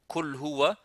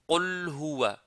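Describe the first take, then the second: First: The first word starts with a plain front k. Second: The first word starts with a deep throat q. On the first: The speaker calls it wrong. "Soit ils le prononcent complètement kaf" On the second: The speaker calls it right. "C'est qu"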